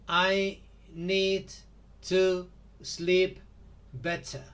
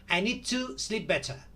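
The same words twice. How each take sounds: First: Each word is said separately, like a robot. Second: The words are linked together smoothly.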